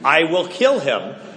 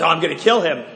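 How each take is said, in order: First: It is said in a determined, serious tone. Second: It is said in an offhand, casual tone.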